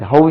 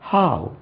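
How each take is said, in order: First: The vowel begins with a short 'uh' sound. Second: The vowel begins with a long open 'ah' sound. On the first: The speaker calls it wrong. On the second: The speaker calls it right.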